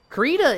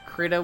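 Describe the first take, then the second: First: The first vowel is a long ee sound. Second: The first vowel is a short i sound. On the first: "like a hard E" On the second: "with little I, like crit"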